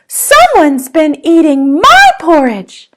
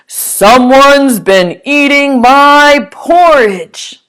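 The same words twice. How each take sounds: First: It is said in a smaller, ordinary voice. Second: It is said in a big, booming voice.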